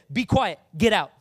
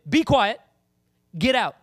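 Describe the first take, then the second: First: Loud stern command; commanding rebuke. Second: Louder stern command; commanding rebuke. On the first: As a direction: rebuke the demon with authority. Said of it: "Jesus looked at him and said". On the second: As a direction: cast it out, loud and firm. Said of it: "That's what he did". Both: Acted.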